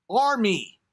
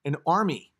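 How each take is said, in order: First: ARMY pitched high, then dropping; emphatic exclamation. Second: Said in the usual way. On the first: Real, not acted. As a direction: call out "Army!" with relish. Repeats the word as exclamation.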